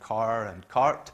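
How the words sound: American accent, with the R sound after vowels.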